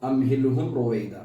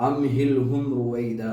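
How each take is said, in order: No difference in how they are said.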